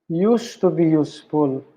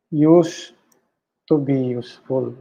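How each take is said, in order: First: Said in the usual way. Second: Used set apart, a pause before to be useful; stress on Used. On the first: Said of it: "let me correct myself". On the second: Shown as a demonstration. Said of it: "Correction, please".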